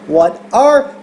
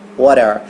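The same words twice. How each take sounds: First: The word 'are' is clearly and fully pronounced. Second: The word 'are' is reduced and run together. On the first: The speaker wants to emphasize the question. "como ela quis enfatizar o are, ela pronunciou bem" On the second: It is the usual, unemphasized way of asking. "Normalmente, esse what are, a gente vai só escutar o what are"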